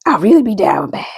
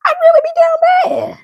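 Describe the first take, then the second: First: Said in the usual way. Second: High-pitched, hammed-up wail; joke-cry it in a much higher voice; mock crying. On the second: Joking about being down bad.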